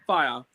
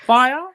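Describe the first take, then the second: First: "Fire" with a falling, settled tone; confirming fall. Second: "Fire" high and loud, rising as a question; questioning rise. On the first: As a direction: confirm "Fire" to yourself, pitch dropping. Confirms the club name to self. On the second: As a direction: ask "Fire" as an unsure guess, pitch climbing. Recalling club name, asks then confirms. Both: Real, not acted.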